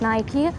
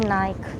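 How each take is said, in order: First: The name is said the American way. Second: The name is said the European way. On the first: "in the States, I was hearing that it's pronounced like Nike" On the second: "In Europe, people are saying Nike"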